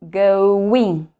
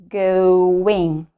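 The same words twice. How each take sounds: No difference in how they are said.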